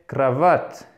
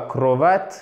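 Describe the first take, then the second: First: The first vowel sounds almost like an A. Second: The first vowel sounds like a full O. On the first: The speaker calls it right. "Le O ici se prononce presque comme un A" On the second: The speaker calls it wrong. "ce n'est pas cravate"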